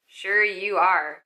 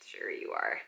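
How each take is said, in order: First: Slow, drawn-out disbelief; slow sarcasm. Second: Whispered dry sarcasm; sarcastic whisper. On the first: Casting director doubting the actress, slow sarcasm. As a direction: stretch it out, unconvinced. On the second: Casting director mocking the actress, whispered sarcasm. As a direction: breathe it out, unconvinced. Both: Retold or imitated. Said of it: "they're like".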